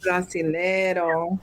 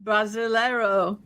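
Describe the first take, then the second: First: Brasileiro, slow and lower; slow repeat. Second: Brasileiro with Portuguese vowels; Brasileiro, Brazilian accent. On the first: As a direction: copy Brasileiro slowly. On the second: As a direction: say Brasileiro like a native. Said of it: "Bon dia". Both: Shown as a demonstration.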